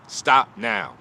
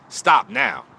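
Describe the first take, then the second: First: Said in the usual way. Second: Sudden loud high cry of stop now; urgent plea. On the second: Real, not acted. To followers with drinking relatives, loud pleading call. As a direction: shout it at them, begging them to quit. Urging listeners to quit drinking.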